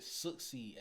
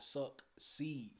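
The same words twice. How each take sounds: First: Said in the usual way. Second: "suck seed" slowly, as two separate words; split into two words. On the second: Shown as a demonstration. Reactor correcting the joke's wording, "suck seed" slowly split apart. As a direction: draw out "suck seed" with a clear break. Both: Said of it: "not suck seed".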